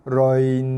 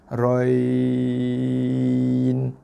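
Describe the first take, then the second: First: The final nun sound is drawn out long. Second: The ya sound is drawn out long. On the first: The speaker calls it wrong. "ada bunyi panjang kat nun. Roin pun salah" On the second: The speaker calls it right. "Yang panjang dekat ya. ... yang eloknya empat harakat"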